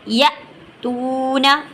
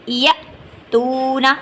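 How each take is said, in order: The two takes are said the same way.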